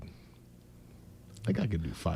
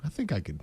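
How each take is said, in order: First: Breathy whispered aside, barely voiced. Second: Said in the usual way. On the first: Real, not acted. Co-host whispering a sneaky bet to himself, hushed whisper. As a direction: whisper it to yourself like a secret wager.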